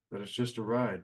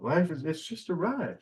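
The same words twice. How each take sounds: First: Said in the usual way. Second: A light put-on comedian voice, higher, drawing out the ride; tossing off the quote in someone else's voice. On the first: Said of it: "they try to tell us". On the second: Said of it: "The old Bill Hicks quote".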